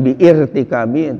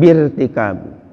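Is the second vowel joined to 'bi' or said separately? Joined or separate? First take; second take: separate; joined. First: An extra separate vowel follows 'bi'. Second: 'Bi' runs straight into 'rtikabi'. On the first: The speaker calls it wrong. "jangan biirtikabi" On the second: The speaker calls it right. "tapi langsung birtikabi"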